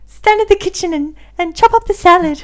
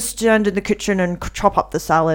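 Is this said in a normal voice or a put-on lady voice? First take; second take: lady voice; normal. First: It is said in a put-on lady voice. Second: It is said in the speaker's normal voice.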